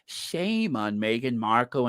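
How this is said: It is said in an imitated, put-on voice.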